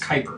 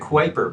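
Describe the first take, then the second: First: The name is said rhyming with viper. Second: The name is said as spelled, not rhyming with viper. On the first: The speaker calls it right. "it's actually pronounced like like viper" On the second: The speaker calls it wrong. "I know that looks like the Kuiper Belt"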